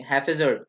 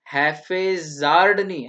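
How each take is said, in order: First: हैफेजर्ड with a short middle vowel, HAF-e-zerd; correct pronunciation. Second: हैफेजार्ड said slowly with a long aa, the wrong way; wrong pronunciation. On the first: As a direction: say हैफेजर्ड crisply, the right way. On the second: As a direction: show the mistake: हैफेजार्ड stretched out. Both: Shown as a demonstration. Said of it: "pronunciation सीख लो बच्चों".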